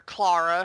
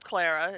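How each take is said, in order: First: Clara said as "CLAH-ruh"; alternative pronunciation of Clara. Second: Clara said as "CLAIR-uh"; first pronunciation of Clara. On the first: Host offers another way to say the name, Clara said "CLAH-ruh". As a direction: open "ah" in the first syllable of Clara. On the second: Host names the Doctor's companion, Clara said "CLAIR-uh". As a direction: rhyme the first syllable of Clara with "air". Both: Shown as a demonstration. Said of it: "however you want to pronounce it".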